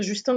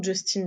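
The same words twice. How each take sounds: First: Justin said the French way; French-style "Justin"; mistaken French pronunciation. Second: Justin said the English way; English-style "Justin"; intended English pronunciation. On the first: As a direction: say "Justin" with a French nasal ending. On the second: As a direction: say "Justin" with a sounded final n. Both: Shown as a demonstration. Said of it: "j'arrête pas de dire Justin ou Justin".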